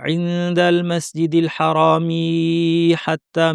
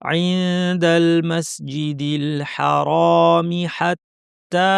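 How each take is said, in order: First: The vowel of 'mi' is drawn out long. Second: The vowel of 'mi' is kept short. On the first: The speaker calls it wrong. "লম্বা করে ফেললাম এটা কিন্তু ভুল" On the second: The speaker calls it right. "মি পড়া হয়ে গেলেই চোখ সামনে চলে যাবে"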